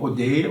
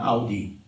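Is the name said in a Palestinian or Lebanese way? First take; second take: Palestinian; Lebanese. First: The name is said the Palestinian way. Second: The name is said the Lebanese way.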